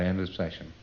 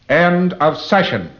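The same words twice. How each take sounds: First: It is said casually without force. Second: It is said loudly, firmly and positively. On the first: The ending does not register. The speaker calls it wrong. "Nothing happens" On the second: The session has definitely ended. The speaker calls it right. "you end the session the same way"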